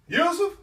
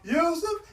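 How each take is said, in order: First: It is a firm, loud call. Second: It is a begging, pleading call.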